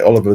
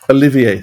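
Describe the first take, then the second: First: The name is said with an English pronunciation. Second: The name is said with a French pronunciation. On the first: The speaker calls it wrong. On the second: The speaker calls it right.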